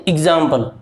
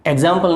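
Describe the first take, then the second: First: "एग्जाम्पल" said as "ig-zampal", short first vowel; correct short-i pronunciation. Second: "एग्जाम्पल" said as "eg-zampal", open first vowel; wrong pronunciation. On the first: Teacher giving learners the right form, "एग्जाम्पल" as "ig-zampal". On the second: Teacher repeating the mistake for learners, "एग्जाम्पल" as "eg-zampal". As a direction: begin "एग्जाम्पल" with an "e" as in egg. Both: Shown as a demonstration. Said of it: "एग्जाम्पल नहीं".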